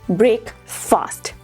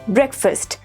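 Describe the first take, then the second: First: It is said as two separate full words. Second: It is said as one blended word. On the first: The speaker calls it wrong. "not break fast" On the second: The speaker calls it right. "it is breakfast"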